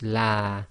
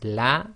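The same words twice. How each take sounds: First: The vowel is held for a longer count. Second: The vowel is held for one short count. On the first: Two men said it. "in the second word it was la" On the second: One man said it. "in the first word it was la"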